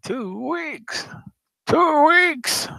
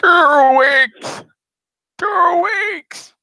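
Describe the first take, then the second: First: High, shrill squeal; shrieking. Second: High shrieking cry. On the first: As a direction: squeal it in mock despair. Repeats the shriek. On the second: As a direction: shriek it out in mock despair. Mocking shriek of two weeks. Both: Acted.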